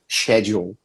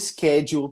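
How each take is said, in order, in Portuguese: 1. É dito com a pronúncia britânica. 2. É dito com a pronúncia americana. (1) "em termos de R P, né, de Received Pronunciation" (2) "muitos britânicos hoje falam schedule também, mas isso é por causa da influência já americana"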